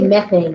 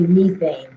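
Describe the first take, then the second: First: It is said with an American pronunciation. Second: It is said with a British pronunciation. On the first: "we say methane" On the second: "we don't say methane. It's just, just the British pronunciation"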